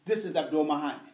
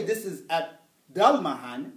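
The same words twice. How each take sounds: First: Abdul with a rounded "oo" vowel; default form, u. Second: Slow Abdul said as ab-DAL; wrong form, a. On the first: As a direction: say Abdul as ab-DOOL. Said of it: "out of the gate is Marafu". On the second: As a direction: open "a" in Abdul, drawn out slowly. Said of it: "I don't say". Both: Shown as a demonstration.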